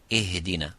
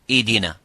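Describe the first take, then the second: First: The h is audible with gentle air. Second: The h sound is dropped entirely. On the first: The speaker calls it right. "We give it time and we give it air" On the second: The speaker calls it wrong. "if it's weak and weaker and weaker, you make it weaker"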